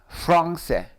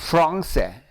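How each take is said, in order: No difference in how they are said.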